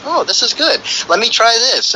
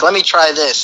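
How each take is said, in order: First: Higher, eager "this is good"; excited. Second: Said in the usual way. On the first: Retold or imitated. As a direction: sound newly hooked and eager. Quoting a user who gets hooked.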